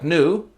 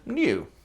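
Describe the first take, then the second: First: The n goes straight into the vowel. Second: A y sound comes between n and vowel. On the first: "Yaw dropping in words like new" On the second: "instead of new"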